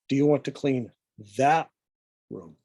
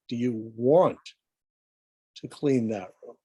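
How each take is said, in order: First: The word room carries the stress. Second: The word want carries the stress. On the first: It asks whether this room or another one. "now the emphasis is on the room" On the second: It asks whether the cleaning is really desired. "the emphasis is on the word want"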